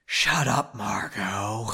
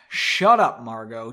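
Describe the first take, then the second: First: Hammed-up restrained anger, drawn out; angry but quiet. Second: Understated angry dismissal; angry but quiet. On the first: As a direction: overdo the quiet anger, sinking lower on the name. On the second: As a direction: start sharp, drop softer on the name. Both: A narrator's reading. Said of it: "angrily but quietly".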